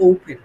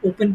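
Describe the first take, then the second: First: "ওপেন" opening on a gliding ou vowel; corrected O diphthong. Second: Said in the usual way. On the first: Shown as a demonstration. Teacher corrects the old reading, "ওপেন" said as ou-pen. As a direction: round the first vowel of "ওপেন" from o into u. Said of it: "ওটার উচ্চারণ হবে". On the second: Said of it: "যেমন আমরা আগে কি পড়তাম".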